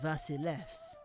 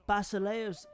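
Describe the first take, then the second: First: The word starts with a V sound. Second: The word starts with a B sound. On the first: This is the modern way of saying it. "Modern Greek, they'd say it more like" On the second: This is the ancient way of saying it. "more in line with the ancient pronunciation"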